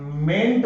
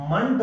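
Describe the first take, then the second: First: मेंट with a full, clear "e" vowel; strong sound. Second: मंट with a reduced schwa, "munt"; weak sound. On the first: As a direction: say मेंट strongly as "ment", not "munt". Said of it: "मेंट बोलोगे तो strong है". (मेंट में पूरा "ए" स्वर, मज़बूत उच्चारण) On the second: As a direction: weaken the vowel in मंट to "uh". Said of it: "तो वीक है". (मंट में हल्का "अ" स्वर, कमज़ोर उच्चारण) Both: Shown as a demonstration.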